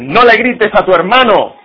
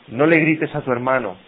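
First: It is said loudly, in an angry voice. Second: It is said calmly, at a normal volume. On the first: The parent shouts while forbidding shouting. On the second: The instruction is given plainly.

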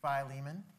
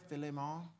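First: The name is said in a plain accent. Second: The name is said in a put-on Jamaican accent.

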